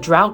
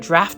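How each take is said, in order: First: The vowel sounds like the one in 'out'. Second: The vowel sounds like the one in 'craft'. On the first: "Is it drought or draft?" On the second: "Is it drought or draft?"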